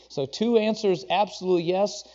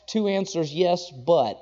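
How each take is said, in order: First: "absolute yes" said firm and final; firm emphatic yes; stress on absolute yes. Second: "yes, but" with a hanging qualifying "but"; qualified yes, but; stress on yes, but. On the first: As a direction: land "absolute yes" as complete. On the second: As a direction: lean on "but" as a catch. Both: Shown as a demonstration.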